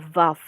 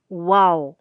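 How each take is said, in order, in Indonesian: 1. Namanya dimulai dengan bunyi v. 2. Namanya dimulai dengan bunyi w. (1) "kalau Ibrani modern dibacanya bisa Vav" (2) "yang mengenalnya Waw ya"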